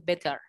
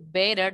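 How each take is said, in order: First: It is said with a British accent. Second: It is said with an American accent. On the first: "es una pronunciación británica y está bien" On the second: "en vez de decir better"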